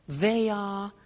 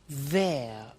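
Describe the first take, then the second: First: Both words are said fully and separately. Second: The words are joined into one short syllable.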